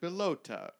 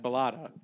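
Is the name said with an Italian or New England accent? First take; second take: Italian; New England. First: It is said in an Italian accent. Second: It is said in a New England accent.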